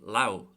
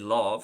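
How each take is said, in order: First: The word ends with a W sound. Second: The word ends with a V sound. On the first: This is how it is said in Ulster. "pronounced just the other way up in Ulster" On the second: This is how it is said in Connacht and Munster. "that's more so the Munster pronunciation"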